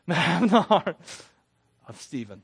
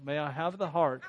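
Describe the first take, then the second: First: Loud laugh breaking into the words. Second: Said in the usual way. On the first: Real, not acted. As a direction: get it out through a burst of laughter. Laughs, then retakes the prayer line.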